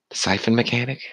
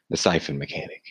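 First: Higher puzzled rising question; mock questioning. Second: Low, quiet, dropped delivery; odd low voice. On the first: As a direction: ask it high and puzzled. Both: Shown as a demonstration. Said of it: "I don't know why I'm talking like this".

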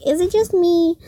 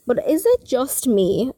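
First: Higher repeat. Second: Said in the usual way. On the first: Shown as a demonstration. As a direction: say it again, higher. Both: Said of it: "Again, I'm just gonna say".

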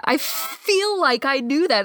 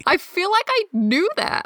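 First: Slowed, stretched repeat; slow drawn-out. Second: High bright first take; high sing-song. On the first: Friend repeating a line, second take slowly. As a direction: draw each word out slowly. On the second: Friend repeating a line, first take high. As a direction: toss it off high and quick. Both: Shown as a demonstration.

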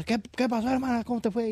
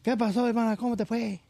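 First: Put-on high sing-song Yucatecan accent; high Yucatecan sister asking how it went. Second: Put-on repeated high sing-song Yucatecan accent; high Yucatecan sister asking again. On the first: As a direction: ask it like a chatty Yucatecan woman. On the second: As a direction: ask it again like a chatty Yucatecan woman. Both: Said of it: "Ya ves cómo hablan los yucatecos".

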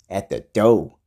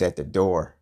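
First: "door" said as "doh", louder on the word; mock pronunciation of door. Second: Said in the usual way. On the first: Vlogger mocking the house rule, "door" turned into "doh". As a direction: drop the r in "door", ending on a long o.

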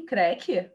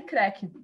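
First: Creque? asked with a rising, puzzled tone; puzzled question. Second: Short sharp imitated crack noise, creque. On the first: Retold or imitated. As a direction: repeat creque? in disbelief. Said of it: "Eu falei, creque". (creque? perguntado, confusa) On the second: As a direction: say creque like a snapping sound. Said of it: "só escutei um creque". (imitando um estalo, creque)

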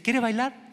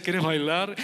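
First: Timid, hesitant invitation, slightly higher; shy boy nervously asking a girl to dance; insecure ask. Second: Low, self-assured invitation; smooth, cocky jock asking a girl to dance; confident ask. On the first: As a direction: ask like you expect a no. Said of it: "iban más inseguros". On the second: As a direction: ask her to dance like you own the room. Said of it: "con esa seguridad". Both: Retold or imitated.

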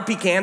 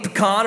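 First: "pecan" said PEE-can, stress on the first syllable with a short a. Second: "pecan" said pe-KAHN, stress on the second syllable with an ah vowel. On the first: Pastor offers the other way to say pie, "pecan" as PEE-can. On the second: Pastor lists pies he doesn't need, "pecan" as pe-KAHN. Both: Shown as a demonstration. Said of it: "however you choose to say it".

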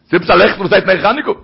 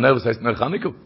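First: "heißt" hit hard and rising, the whole question louder; pressing question. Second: Said in the usual way. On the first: Shown as a demonstration. The preacher challenging his listeners, louder and insistent. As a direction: push the question at them, "was heißt nach Chaneke?".

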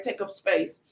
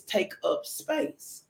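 First: Said in the usual way. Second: Slow whispered saying. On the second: Shown as a demonstration. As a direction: breathe the phrase out slowly, in a whisper. Quotes the saying, then repeats it.

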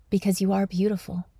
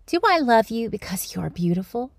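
First: Softer falling statement; answering himself. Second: Gentle rising question to his daughter; asking question. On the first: Dad offering daughter an answer, soft falling tone. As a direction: let it drop, quieter, as a suggestion. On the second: Dad asking daughter at bedtime, rising question. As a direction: lift the end like a real question. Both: Retold or imitated. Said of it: "The dad's speaking".

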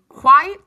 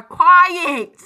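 First: "quiet" run together as one syllable, like quite; "quiet" squeezed into one beat; first reading of "quiet". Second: "quiet" in two clear syllables, kwai-et; loud, over-enunciated "quiet"; second reading of "quiet". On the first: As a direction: say "quiet" as a near-rhyme of kite. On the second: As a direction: punch out "quiet" high and loud, both beats. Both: Shown as a demonstration. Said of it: "I didn't know if they were saying".

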